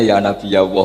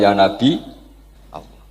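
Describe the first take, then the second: First: Nabi ends in a plain vowel, no glottal stop. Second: Nabi ends with a glottal stop before the vowel. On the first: This is the Quraysh way of saying it. "Aku iku wong Quraisy dong, dadi ora biasa hamzah. Aku biasane" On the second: This is the Bani Tamim way of saying it.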